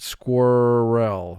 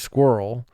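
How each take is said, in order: First: Every sound is exaggerated to match the spelling. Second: The word is said in its ordinary everyday way. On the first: This helps with spelling the word. "for spelling we pronounce it squirrel" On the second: This is how the word is normally spoken. "So we say squirrel"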